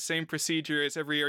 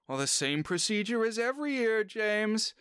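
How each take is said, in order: First: Said in the usual way. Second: Raised, lightly voiced old lady quoting her butler; a hint of a prim elderly hostess; Miss Sophie voice. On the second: Old lady reminding her butler of the yearly ritual, lightly voiced.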